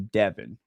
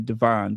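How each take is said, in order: First: It is said the standard, non-local way. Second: It is said the local Chicago way. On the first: "but it's actually Devon" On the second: "in Chicago, we say Devon"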